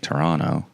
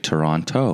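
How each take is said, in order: First: It is pronounced the way locals say it. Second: It is pronounced the way outsiders say it. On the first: "as a Torontonian I'm supposed to say Toronto" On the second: "every now and then I'll say Toronto"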